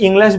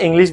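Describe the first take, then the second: First: "ইংলিশ" with an open last vowel, "ING-lesh"; British-American contrast. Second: "ইংলিশ" with a close i, ending "-lish"; British-American contrast. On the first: ("ইংলিশ"-এর শেষে "লেশ" উচ্চারণ) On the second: ("ইংলিশ"-এর শেষে "লিশ" উচ্চারণ) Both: Shown as a demonstration. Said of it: "একটা British, একটা American".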